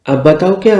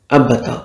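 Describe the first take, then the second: First: Higher, indignant throwing back of "अब बताओ"; indignant echo. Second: Said in the usual way. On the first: Acted. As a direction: echo "अब बताओ क्या" as a piqued question.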